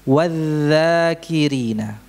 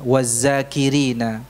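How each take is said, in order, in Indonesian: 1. Konsonan setelah 'wa' adalah dh yang lembut. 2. Konsonan setelah 'wa' adalah z biasa. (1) "Yang benar bagaimana?" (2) "Ini tidak tepat"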